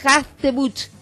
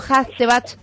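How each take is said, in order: First: The last vowel sounds closer to u. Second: The last vowel sounds closer to a. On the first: The speaker calls it right. "Hachtebuch, no Hachtebach" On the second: The speaker calls it wrong. "estaba pronunciando mal"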